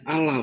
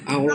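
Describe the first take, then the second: First: The first vowel sounds like a plain 'a'. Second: The first vowel sounds like a rounded 'o'. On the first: It follows Indonesian spelling rules. The speaker calls it right. "harus disebut dengan" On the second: It follows Arabic pronunciation rules. The speaker calls it wrong.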